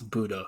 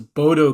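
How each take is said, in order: First: The first vowel sounds like 'oo'. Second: The first vowel sounds like 'oh'. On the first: The speaker calls it right. "Apparently, it's Budo" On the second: The speaker calls it wrong. "I thought it was Bodo Glimt"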